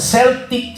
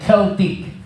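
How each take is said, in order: First: The word begins with an s sound. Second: The word begins with a k sound. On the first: This is the way it is commonly called locally. "or Celtic sa tawag natin" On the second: This is the original pronunciation of the word. "ang pronunciation no kasi nung Celtic ay Celtic. Kaya parang cult ang dating"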